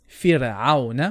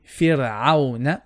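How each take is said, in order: No difference in how they are said.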